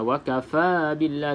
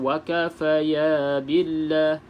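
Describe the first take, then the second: First: No 'ya' sound follows 'kafa'. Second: An extra 'ya' sound follows 'kafa'. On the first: The speaker calls it right. "wakafa billah dua harakat" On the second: The speaker calls it wrong. "jangan baca wakafaya billah"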